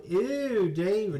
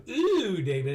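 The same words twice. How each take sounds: First: High, stretched ew; mock Alexis whine; disgusted ew. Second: High, stretched ew; mock disgusted whine. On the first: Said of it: "if you go". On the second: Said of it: "if you do".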